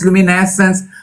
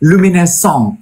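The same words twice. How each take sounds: First: The word is pronounced the English way. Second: The word is pronounced the French way. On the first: The speaker calls it wrong. "anjir gue salah" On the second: The speaker calls it right. "kan luminescence itu bahasa Perancis ya"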